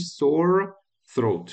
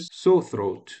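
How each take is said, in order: First: The two words are said separately and fully. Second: The two words run together without a break. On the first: "میتونه اینجوری هم تلفظ بشه یا بگی" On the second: "اینا میچسبه به هم میشه"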